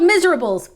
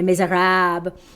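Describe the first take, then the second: First: It is said with an English spelling pronunciation. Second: It is said with a French pronunciation. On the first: "It's spelled miserables" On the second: "the French pronunciation is Les Miserables"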